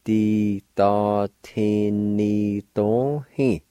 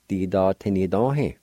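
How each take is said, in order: First: "Di, da, ti, ni, do, he" drawn out evenly; deliberate breakdown of "Di, da, ti, ni, do, he"; syllable by syllable. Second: Said in the usual way. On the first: Shown as a demonstration. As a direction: hold each syllable of "Di, da, ti, ni, do, he". Slower take before the blended word.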